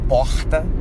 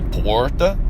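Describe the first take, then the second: First: It is said in a Rio de Janeiro accent. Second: It is said in a Brazilian countryside accent. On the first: "the different accents in Rio de Janeiro that they say porta" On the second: "And in the countryside, uh, they say porta"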